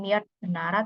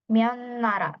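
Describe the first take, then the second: First: The first word ends with a t sound. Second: The first word ends with an n sound. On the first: The speaker calls it wrong. "bukan Myeot Nara" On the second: The speaker calls it right. "jadinya dibacanya Myeon Nara"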